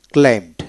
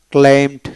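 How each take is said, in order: Both takes have the same delivery.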